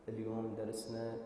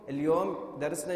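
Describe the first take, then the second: First: The voice is pushed away from its normal pitch. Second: The voice is at its normal speaking pitch. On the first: The speaker calls it wrong. "انا ما احكي هيك، مو طبيعه صوتي هذا" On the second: The speaker calls it right. "انا صوتي الطبيعي وين؟ هو هذا اللي احكي"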